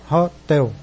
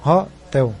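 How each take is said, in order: First: Laughing stress. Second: Hotel said through a laugh, TEL stressed; laughing demo. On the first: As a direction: chuckle and punch TEL in hotel. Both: Shown as a demonstration. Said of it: "pronúncia mais forte é hotel".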